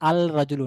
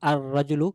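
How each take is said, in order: First: The l sound of the article is clearly heard. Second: The l merges into the following consonant. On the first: The speaker calls it wrong. "আল রাজুলু না" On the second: The speaker calls it right. "লামের কোনো উচ্চারণ থাকবে না"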